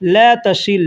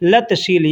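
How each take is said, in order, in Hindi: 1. यह वाक्य धीरे बोला जाता है, दोनों शब्द अलग-अलग। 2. यह वाक्य जल्दी बोला जाता है, दोनों शब्द जुड़कर एक हो जाते हैं।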